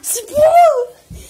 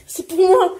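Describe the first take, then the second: First: Slow, loud, high shout. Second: Said in the usual way. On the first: Real, not acted. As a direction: yell it out, drawn out. Fighting over the cards.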